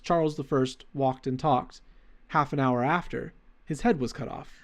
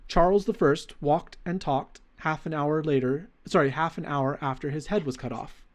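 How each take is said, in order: First: It is read with pauses after talked and after. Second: It is read straight through without pauses.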